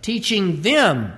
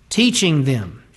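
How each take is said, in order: First: Slow, leaning on "them" with a falling tune; stress on them. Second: Said in the usual way. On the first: Shown as a demonstration. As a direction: let "Teaching them" land slowly, weight on "them". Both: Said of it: "Think about the personal nature of that".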